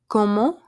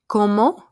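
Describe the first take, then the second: The two takes are said the same way.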